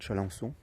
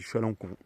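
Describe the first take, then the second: First: The last syllable begins with a soft S sound. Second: The last syllable begins with a hard K sound. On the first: This might be the correct local pronunciation. "mais c'est peut-être Chalençon" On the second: This is how the speaker personally says the name. "Moi, je dis Chalancon"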